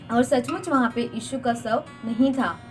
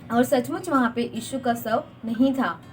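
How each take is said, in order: Both takes have the same delivery.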